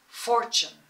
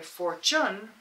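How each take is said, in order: First: The stress is on the first syllable. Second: The stress is on the second syllable. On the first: The speaker calls it right. "Emphasis on the first syllable" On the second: The speaker calls it wrong. "We don't say fortune"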